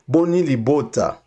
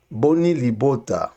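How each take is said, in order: Both takes have the same delivery.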